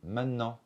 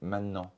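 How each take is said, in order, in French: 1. Le son « t » est absorbé par le « n ». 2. Le son « t » est absorbé par le « n ».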